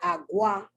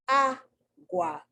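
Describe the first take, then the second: First: The stress is on the last syllable. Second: The stress is on the first syllable. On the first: The speaker calls it wrong. "It's not agua" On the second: The speaker calls it right. "The a is emphasized"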